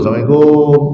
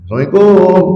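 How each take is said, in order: First: It is said at a lower pitch. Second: It is said at a higher pitch.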